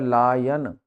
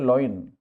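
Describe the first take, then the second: First: The vowels sound like 'lion', i before o. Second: The vowels sound like 'loin', o before i. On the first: The speaker calls it right. "उच्चारण है, वो है लायन" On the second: The speaker calls it wrong. "General लोग इसको बोलते हैं लॉइन"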